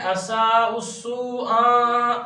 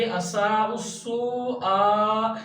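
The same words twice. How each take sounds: First: असा उस्सू आ with final आ not sounded from the throat; common mispronunciation. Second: असा उस्सू आ slowly, final आ started in the throat; hamza from the throat. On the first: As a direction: slide into a loose, drawn-out आ in असा उस्सू आ. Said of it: "इसमें बड़ी गलती ये करते हैं". (असा उस्सू आ में आ हलक के बिना) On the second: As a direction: stretch असा उस्सू, then sound आ from the throat. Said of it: "हलक से अदा होती है". (असा उस्सू आ, आखिरी आ हलक से) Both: Shown as a demonstration.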